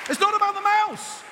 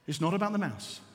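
First: High, raised preaching voice; emphatic proclamation. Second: Low, softened statement; quiet key point. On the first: Preacher driving the lesson home, high and emphatic. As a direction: proclaim it at a high, forceful pitch. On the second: Preacher giving congregation the lesson, quiet and low. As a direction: drop the voice and let it land. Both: Real, not acted.

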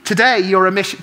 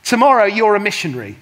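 First: Today hit loud, cut off at mission-; stress on Today. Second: Tomorrow punched loud and fast, falling; stress on Tomorrow. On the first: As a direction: stress Today, then break off. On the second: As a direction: lean hard on Tomorrow, quick and loud. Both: Shown as a demonstration.

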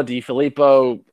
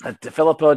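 First: "DiFilippo" said with a "dee" first syllable; echoing a co-host's version of the name; DiFilippo pronunciation. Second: "DeFilippo" said with a "duh" first syllable; correcting how the coach's name is said; DeFilippo pronunciation. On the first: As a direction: say it as "DiFilippo", with the "ee" sound at the start. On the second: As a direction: say it as "DeFilippo", stressing the "fil". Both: Shown as a demonstration. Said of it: "I've been saying DiFilippo".

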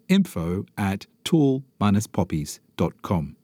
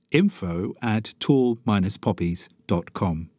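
No difference in how they are said.

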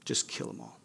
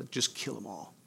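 First: The same order, now unvoiced and much lower; whispered echo. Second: A soft, cold command, voiced low; quiet menacing order. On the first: Pharaoh's command repeated to the congregation as a chilling whisper. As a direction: let the order fade into a whisper. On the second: Pharaoh ordering his armies after the slaves, quiet and cold. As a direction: say it quietly like a ruthless king.

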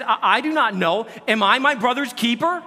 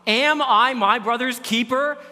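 First: Defiant Cain. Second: AM stretched, slow and defiant; defiant Cain, slowed. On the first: Cain's defiant reply read aloud. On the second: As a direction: drag out Cain's cold retort, stressing AM. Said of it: "the response". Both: Acted.

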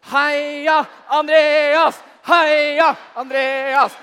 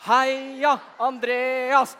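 First: Huge, slow, drawn-out shouted chant; all-out cheer. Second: Slow, drawn-out half-hearted cheer for Andreas; a lukewarm group chant, not yet giving it all; weak cheer. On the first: Whole room cheering Andreas on, full-throated shouted chant. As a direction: cheer for Andreas as loud as you can. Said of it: "tidenes cheering her". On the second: Kids asked to cheer for Andreas, half-hearted cheer. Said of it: "det der er kjempedårlig". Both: Acted.

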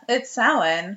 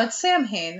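First: Samhain said slowly as SOW-in; stretched-out, knowing "SOW-in" for Samhain; correct Irish pronunciation. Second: Sam Hain said SAM HAYN; two English words for Sam Hain, m sounded; literal mispronunciation. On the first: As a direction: say Samhain with no m sound. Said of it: "He's like". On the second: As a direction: say Sam Hain exactly as spelled. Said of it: "everybody else around us was like". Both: Retold or imitated.

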